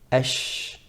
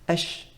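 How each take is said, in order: First: The sh sound is long and spread. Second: The sh sound is short and clipped. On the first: The speaker calls it right. "The length should be like that, the spreading of the sound of sheen within the mouth" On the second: The speaker calls it wrong. "the pronunciation isn't quite accurate"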